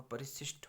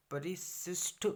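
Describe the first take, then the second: First: परिशिष्ट ending in aspirated ठ; correct pronunciation. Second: परिशिष्ट drawn out, higher, ending in plain ट; wrong pronunciation. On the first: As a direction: say परिशिष्ट as "parishishth". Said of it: "परिशिष्ट होगा". (परिशिष्ट के अंत में महाप्राण ठ बोलें) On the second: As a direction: say परिशिष्ट slowly as "parishisht". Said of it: "नहीं होगा". (परिशिष्ट को खींचकर, अंत में ट बोलें) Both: Shown as a demonstration.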